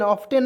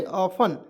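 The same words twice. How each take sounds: First: ऑफ्टेन with the T pronounced; wrong pronunciation. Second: ऑफन without the T; correct silent T. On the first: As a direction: misread ऑफ्टेन as "off-ten". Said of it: "ऑफ्टेन नहीं". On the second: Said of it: "ऑफन पढ़ेंगे जी". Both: Shown as a demonstration.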